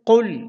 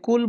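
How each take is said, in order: First: The first consonant is a deep back q. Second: The first consonant is a plain front k. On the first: The speaker calls it right. "কফকে কিন্তু শুদ্ধ করে উচ্চারণ করতে হবে" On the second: The speaker calls it wrong. "কুল বলা যাবে না"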